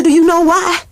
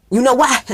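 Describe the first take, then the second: First: Higher, louder punchy repeat of the question; rising emphatic question. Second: Said in the usual way. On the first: Shown as a demonstration. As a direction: hit it again, bigger. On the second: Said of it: "I said".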